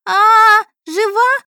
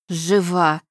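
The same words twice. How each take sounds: First: Put-on very high, loud girlish screech; shrieking. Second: Sour, displeased exclamation; disappointed anger. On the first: Daughter seeing the patient wake, ear-splitting shriek. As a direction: squeal in shock at full pitch. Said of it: "заверещала дочь Ирина, да так, что у меня уши заложило". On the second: Mother finding the heiress alive, disappointed and angry tone. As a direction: say it with restrained spite, no joy. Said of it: "В голосе Домны слышалось разочарование и злость". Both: A narrator's reading.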